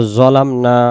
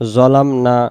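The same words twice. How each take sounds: Both takes have the same delivery.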